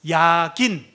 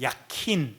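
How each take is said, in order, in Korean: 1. 가운데 자음은 부드러운 g 소리입니다. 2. 가운데 자음은 거센 k 소리입니다.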